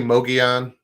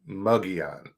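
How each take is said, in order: First: The word begins with a 'mo' sound. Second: The word begins with a 'mug' sound. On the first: "I I say Mogollon" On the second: "Some say Mugion, like M U G"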